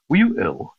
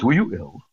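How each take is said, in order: First: Imitating a posh vicar, a touch higher and louder; mock the vicar's posh question; posh baritone vicar. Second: Lightly voiced posh vicar, repeated; a hint of the posh vicar; posh vicar again. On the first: Vicar peering over half-moon glasses, posh mock. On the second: Repeating the vicar's posh question to the boy, lightly voiced. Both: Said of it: "he said in his posh, uh, baritone voice".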